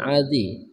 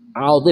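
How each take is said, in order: First: No L sound comes before the z. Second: An L sound comes before the z. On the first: The speaker calls it wrong. "bukan azi" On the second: The speaker calls it right. "Alzi bukan azi"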